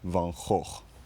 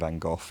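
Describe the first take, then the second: First: The name is pronounced with Dutch sounds. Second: The name is pronounced with English sounds. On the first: "That's my attempt at pronouncing it in Dutch" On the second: "pronouncing it in an English way"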